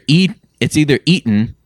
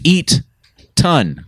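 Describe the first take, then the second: First: It sounds like the word eaten. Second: It sounds like eat followed by ton. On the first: "like Eaton a ton" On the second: "like eat a ton"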